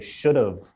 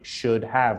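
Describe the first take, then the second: First: The words are blended into one reduced form. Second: Both words are said fully and separately. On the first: The speaker calls it right. "we say should have" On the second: The speaker calls it wrong. "we never say should have"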